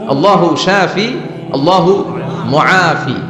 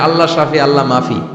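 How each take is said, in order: First: The last word has three syllables, mu-a-fi. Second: The last word is shortened to two syllables, mafi. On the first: The speaker calls it right. "শব্দটা হচ্ছে মুআফি।" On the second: The speaker calls it wrong. "এটারে উল্টে আবার বাংলাদেশে কয়"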